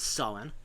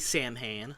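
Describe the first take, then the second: First: The name is said with its traditional Irish pronunciation. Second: The name is said the way TV shows say it. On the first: The speaker calls it right. "he says Samhain" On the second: The speaker calls it wrong. "he doesn't say Samhain like Ghostbusters or Supernatural do"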